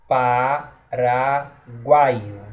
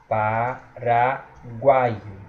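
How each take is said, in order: Both takes have the same delivery.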